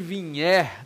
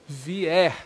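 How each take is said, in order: First: The word has a palatal nh sound inside. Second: The word has no palatal nh sound inside. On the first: The speaker calls it wrong. "O que vier, não" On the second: The speaker calls it right. "Sem N H"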